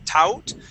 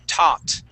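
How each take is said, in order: First: The vowel sounds like 'ow'. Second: The vowel sounds like 'ah'. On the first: The speaker calls it wrong. "you had pronounced it tau, tout" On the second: The speaker calls it right. "would only make an ah sound. We would say tot"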